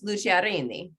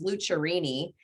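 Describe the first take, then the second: First: The R is rolled, giving an Italian sound. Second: The R is said plainly, not rolled. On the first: "if you want to get authentic and you want to roll your R's" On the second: "the American version or the Kansas version"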